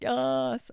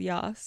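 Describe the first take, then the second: First: The word is said as an excited, drawn-out exclamation. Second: The word is said plainly, as a place name. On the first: It expresses enthusiastic approval. "like the keen queer person saying Yass" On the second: It names a town. "it's not like that, but very similar"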